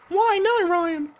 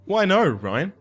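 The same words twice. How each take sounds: First: It is said in a very high voice. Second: It is said in his normal voice.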